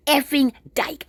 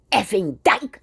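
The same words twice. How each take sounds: First: Slow, higher sneering slur; sneering contempt. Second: Mild mock contempt, barely marked; contemptuous slur. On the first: Retold or imitated. Stranger insulting her for ignoring him, slow higher sneer. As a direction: drag the words out with open disdain. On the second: Man on the street sneering at her, mild contempt. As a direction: toss it off with a light sneer. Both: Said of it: "he said it with such contempt".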